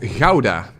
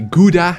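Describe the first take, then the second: First: It is said with the native Dutch pronunciation. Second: It is said with a foreign English-style pronunciation. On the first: The speaker calls it right. "The city is called Gouda" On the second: The speaker calls it wrong. "how it's always uh, mispronounced outside of the country"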